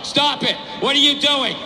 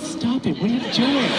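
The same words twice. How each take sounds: First: It is read out in a flat tone. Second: It is said in a playful, flirty tone.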